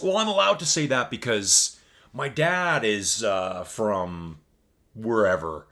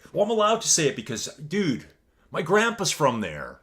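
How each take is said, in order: First: A lightly mocking, slightly louder smug voice; mocking other people. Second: Higher, fast and louder joking brag; hammed-up smug excuse. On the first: Streamer parodies people who excuse their remarks, mildly mocking. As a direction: poke fun at the excuse people give. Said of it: "when people say this". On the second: Streamer jokingly gives his own excuse, much higher and cheeky. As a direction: toss out the excuse like a cheeky wind-up. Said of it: "So I like to say that a lot".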